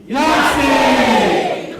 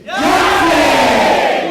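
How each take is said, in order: First: High, loud celebratory yell; group shout. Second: Even louder, high all-out yell; level ten shout. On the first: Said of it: "let's try it right now". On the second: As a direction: give it everything you've got. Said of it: "one more at level ten". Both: Shown as a demonstration.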